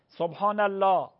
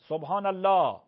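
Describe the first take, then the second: No difference in how they are said.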